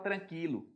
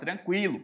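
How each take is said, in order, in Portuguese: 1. O u depois do q é mudo. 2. O u depois do q é pronunciado. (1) "você também não fala tranquilo" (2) "Você fala tranquilo"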